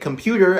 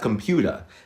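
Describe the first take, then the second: First: The final R sound is pronounced. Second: The final R sound is dropped.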